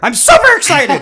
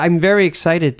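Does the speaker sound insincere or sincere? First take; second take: sincere; insincere. First: It sounds genuinely enthusiastic and sincere. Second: It sounds flat and insincere.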